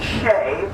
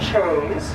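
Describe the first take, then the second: First: It starts with 'sh' and has no final 's'. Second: It starts with 'ch' and ends in 's'. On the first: The speaker calls it right. "the pr- correct pronunciation is Horse and Shay" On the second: The speaker calls it wrong. "a lot of people call it Horse and Chase"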